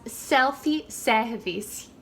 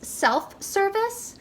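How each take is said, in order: First: It is said with a Brazilian Portuguese accent. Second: It is said with an American English accent. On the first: "in Brazil they would pronounce it as self-service" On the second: "we would call this self-service"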